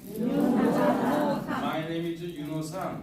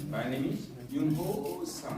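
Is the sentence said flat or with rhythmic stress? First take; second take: flat; rhythmic. First: It is said flat, without rhythmic stress. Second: It is said with rhythm and a strong accent. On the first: A native speaker would not understand it. The speaker calls it wrong. "그럼 못 알아들어요" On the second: A native speaker would understand it. The speaker calls it right. "어디에다가 힘을 줘야 액센트 줘야 되거든요"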